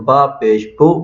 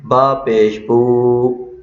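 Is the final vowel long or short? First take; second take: short; long. First: The final vowel is kept short. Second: The final vowel is drawn out long. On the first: The speaker calls it right. "ब सिर्फ़ पेश है, तो बा पेश बू पढ़ा जाएगा" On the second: The speaker calls it wrong. "तो इस तरह पढ़ना गलत है।"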